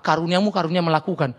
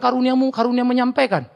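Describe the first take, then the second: First: Said in the usual way. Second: Raised, smug voice claiming the gift of speaking; mock hypocrite. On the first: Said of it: "Lu aku apa?". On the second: Hypocrite excusing himself from doing anything, smug raised voice. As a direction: play the smug talker. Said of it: "Lalu kau bilang".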